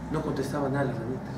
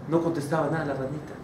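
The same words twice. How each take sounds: The two takes are said the same way.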